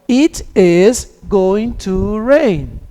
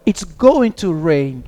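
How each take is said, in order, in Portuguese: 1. "it is" é dito como duas palavras completas e separadas. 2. "it is" é dito como uma palavra contraída.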